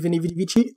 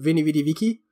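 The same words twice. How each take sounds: First: It is said in ecclesiastical Latin pronunciation. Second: It is said in ancient classical Latin pronunciation.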